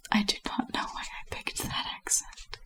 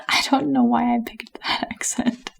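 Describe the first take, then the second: First: Very soft, whispered self-reproach; barely voiced aside to oneself; hushed aside. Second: Real amused out-of-character aside; laughing at one's own accent choice. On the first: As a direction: drop to a whisper, out of character. Reader repeats aside under breath. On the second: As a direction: break character and laugh through the words. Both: Real, not acted.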